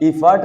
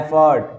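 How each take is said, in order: First: The first vowel sounds like 'ih'. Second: The first vowel sounds like 'eh'. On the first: The speaker calls it wrong. "इफर्ट नहीं होता है" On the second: The speaker calls it right.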